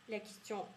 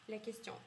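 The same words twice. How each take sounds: No difference in how they are said.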